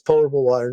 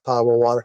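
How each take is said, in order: First: The first syllable sounds like 'pot'. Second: The first syllable does not sound like 'pot'. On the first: The speaker calls it right. "It says potable water" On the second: The speaker calls it wrong. "not potable water"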